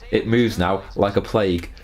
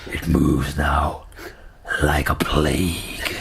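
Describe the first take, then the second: First: It is read in a plain voice. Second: It is read in a dramatic voice.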